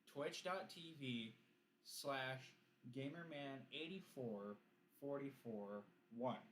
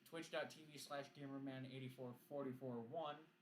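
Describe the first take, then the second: First: It is said at a slower pace. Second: It is said at a faster pace.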